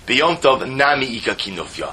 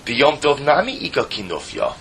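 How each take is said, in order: First: It is said as a statement. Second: It is said as a question.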